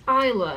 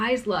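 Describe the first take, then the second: First: The S in the name is silent. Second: The S in the name is pronounced. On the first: The speaker calls it wrong. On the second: The speaker calls it right.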